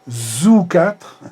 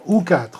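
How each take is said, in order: First: A z sound links into the word 'ou'. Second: 'Ou' starts separately with a fresh attack. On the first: The speaker calls it wrong. "c'est pas très joli le zou quatre" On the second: The speaker calls it right. "on va dire ou quatre, mais là, il faudra faire une injection à part"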